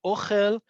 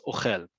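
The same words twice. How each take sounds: First: "ochel" stressed on the O, OH-khel; first-syllable stress. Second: "ochel" stressed on the end, o-KHEL; second-syllable stress. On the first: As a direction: hit the first syllable of "ochel", ending on a rise. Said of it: "emphasis is on the first syllable". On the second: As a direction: land on the last syllable of "ochel", falling. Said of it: "is it on the second one". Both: Shown as a demonstration.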